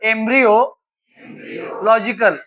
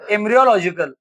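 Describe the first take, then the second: First: The word is split into two parts. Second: The word is said smoothly as one unit.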